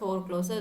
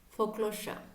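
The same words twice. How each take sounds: First: The 's' is not said as 'sh'. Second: The 's' is said as 'sh'. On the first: The speaker calls it wrong. "it's not foreclosure" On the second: The speaker calls it right. "this is pronounced as sha"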